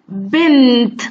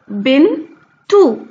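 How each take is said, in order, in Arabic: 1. الكلمة بتنتهي بصوت 't' ساكن. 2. الكلمة بتنتهي بـ 't' مع حركة 'u'. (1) "لما نيجي نقف عليها ونشيل من عليها التشكيل" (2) "لما حطينا عليها تشكيل بقت ايه؟ بقت تاء"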